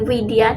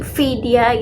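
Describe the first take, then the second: First: The first sound is a clear W. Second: The first sound is a clear V. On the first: "Kalau W jadi Widya" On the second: "Kalau V banget kan jadi Vidya"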